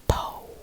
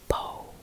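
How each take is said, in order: First: The vowel glides toward an oo sound. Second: The vowel glides toward an oo sound.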